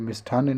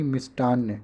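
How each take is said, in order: First: मिष्ठान्न with a puffed "tth"; breath after the t in मिष्ठान्न; wrong aspirated ठ. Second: मिष्टान्न with a hard t; no puff on ट in मिष्टान्न; correct unaspirated ट. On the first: Teacher rejects the spelling, aspirated ठ in मिष्ठान्न. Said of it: "मिष्ठान्न नहीं". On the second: Teacher gives the right spelling, unaspirated ट in मिष्टान्न. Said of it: "ये वाला सही है". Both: Shown as a demonstration.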